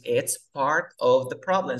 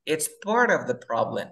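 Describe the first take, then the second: First: PART OF slow and separate, T sounded; sin linkear. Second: PART OF run together as "parof"; palabras linkeadas. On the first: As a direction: slowly articulate the T in PART OF. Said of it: "no digas". (PART OF lento y separado, con T) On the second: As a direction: link PART OF and drop the T. (PART OF unido, sin T) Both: Shown as a demonstration.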